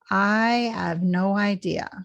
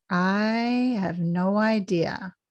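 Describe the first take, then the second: First: The words run together and the H nearly disappears. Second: The same.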